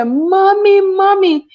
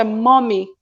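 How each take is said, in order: First: High, loud cry of Mommy, Mommy; a child screaming for her mother. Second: Said in the usual way. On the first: Retold or imitated. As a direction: call out like a frightened child, much higher and louder. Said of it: "if she scream out and say". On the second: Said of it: "She just say, 'Mommy,'".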